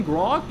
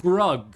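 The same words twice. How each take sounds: First: "grog" with an "ah" vowel; Grog with an open o. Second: "Grug" with an "uh" vowel; corrected name "Grug", short vowel. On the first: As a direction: say "grog" to rhyme with "log". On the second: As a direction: say "Grug" to rhyme with "rug". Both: Real, not acted. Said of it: "your name is not Grog".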